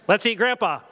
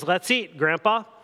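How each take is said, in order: First: There is no pause before Grandpa. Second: There is a pause before Grandpa.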